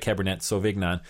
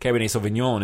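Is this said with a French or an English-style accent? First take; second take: English; French. First: It is said with an English-style pronunciation. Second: It is said with a French-style pronunciation. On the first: This is the form the hosts normally use. "instead of" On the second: This is the form listeners insist on. "tell us we need to say things like"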